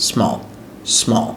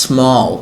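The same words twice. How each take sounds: First: small in one quick go; short, quick small without holding the s; said quickly. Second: small starting on a long hissed s; teacher's careful small with a lengthened "sss"; drawn-out initial s. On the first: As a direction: run the s straight into the rest of small. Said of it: "দ্রুত বলতে পারবেন". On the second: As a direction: hold the s before gliding into small. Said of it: "ওগুলো এভাবে শুরু হয় ইংলিশে". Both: Shown as a demonstration.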